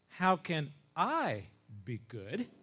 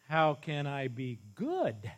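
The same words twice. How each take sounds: First: The stress falls on the word how. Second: The stress falls on the word good. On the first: "As if to say, I'm such a sinner. How in the world can I ever be a good person?" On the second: "Emphasis on the good"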